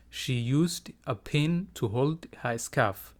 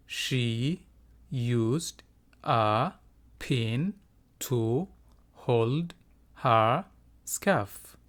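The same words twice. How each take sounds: First: Words joined up, still slow and careful; slow teacher's model without long gaps; whole sentence for repeating. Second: Each word drawn out and set apart by pauses; slow, broken-up teacher model; word by word for repeating. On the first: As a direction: read it as one connected, measured sentence. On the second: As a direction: say it slowly, one word at a time, for learners. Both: Shown as a demonstration. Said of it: "Iga daba dheh".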